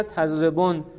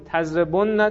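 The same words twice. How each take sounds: First: "تضربن" as tazrebon, with "o" and closed n; light plural form. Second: "تضربن" as tazrebonna, with "o", double n and final "a"; heavy plural form. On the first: Teacher reciting the light plural after the heavy, "تضربن" as tazrebon. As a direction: stop "تضربن" right on the n. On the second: Teacher reciting the heavy plural, "تضربن" as tazrebon-na. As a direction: hold the nn of "تضربن" before -na. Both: Shown as a demonstration. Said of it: "خفیف و ثقیل است".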